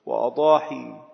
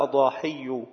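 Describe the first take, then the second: First: وأضاحي with a single light ya, wa-adahi; light final ya. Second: أضاحي with a doubled y, adahiyyu; doubled final ya. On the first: Teacher showing the other plural, وأضاحي unstressed ya, "wa-adahi". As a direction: end وأضاحي on a long plain "ee", no doubling. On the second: Teacher showing the plural, أضاحي with shadda, "adahiyyu". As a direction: say أضاحي as "a-da-HIY-yu", stressing the doubled ya. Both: Shown as a demonstration. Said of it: "بتشديد الياء وتخفيفها".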